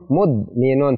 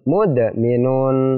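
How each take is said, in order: First: The d sound is held without a bounce. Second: The d sound is released with a bouncing echo. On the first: The speaker calls it wrong. "Tidak boleh" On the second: The speaker calls it right. "yang benar adalah mudminun"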